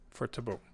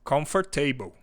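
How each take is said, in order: First: The stress is on the first syllable. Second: The stress is not on the first syllable. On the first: The speaker calls it right. "com a ênfase no no con" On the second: The speaker calls it wrong. "tá errado"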